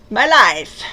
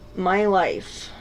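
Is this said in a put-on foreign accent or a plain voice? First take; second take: foreign accent; plain. First: It is said in a put-on foreign accent. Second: It is said in the speaker's normal accent.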